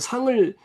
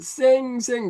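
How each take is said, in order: First: The name is said with its native Korean vowel. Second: The name is said with an American-style vowel. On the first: The speaker calls it right. "첫자만 따가지고 상을 상 이제 보통 부르잖아요" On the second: The speaker calls it wrong. "상을 또 발음을 제대로 못해요. 뭐라고 하냐면 쌩쌩 그러는 거예요"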